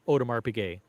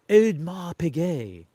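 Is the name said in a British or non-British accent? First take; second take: non-British; British. First: It is said in a non-British accent. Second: It is said in a British accent.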